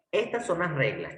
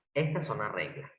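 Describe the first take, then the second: First: Said in the usual way. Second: "Estas son las reglas" repeated lower and softer, sinking away. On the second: Shown as a demonstration. Teacher repeating the rules to the class, softer and lower. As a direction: let the rule settle, say it again quietly.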